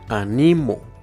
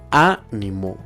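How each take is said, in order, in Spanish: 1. La tónica está en la penúltima sílaba. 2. La tónica está en la antepenúltima sílaba. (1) "si se encuentra en la penúltima sílaba, sonará de la siguiente forma" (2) "si se encuentra en la antepenúltima sílaba, sonará de la siguiente forma"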